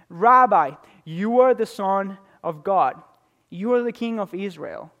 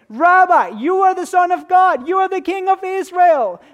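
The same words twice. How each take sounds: First: It is read in a flat, unexcited tone. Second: It is said in an excited tone.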